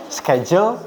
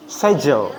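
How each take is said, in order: First: Schedule with a hard k, "sked-jel"; American pronunciation. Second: Schedule without k, "sedjel"; British pronunciation. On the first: Teacher contrasting the two for students, American Schedule with k. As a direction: say Schedule with sk at the start. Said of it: "orang Amerika tadi ngucapinnya schedule". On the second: Teacher contrasting the two for students, British schedule without k. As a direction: drop the k from schedule, falling at the end. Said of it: "Jadi K-nya hilang". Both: Shown as a demonstration.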